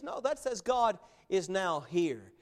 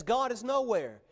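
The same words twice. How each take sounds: First: "now here" as two separate words, slower; reading now here. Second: "nowhere" run together as one word; reading nowhere. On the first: Preacher contrasting two readers of one sign, "now here". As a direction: pull "now" and "here" apart, slowly. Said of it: "The other person says". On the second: Preacher contrasting two readers of one sign, "nowhere". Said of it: "one person says". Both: Retold or imitated.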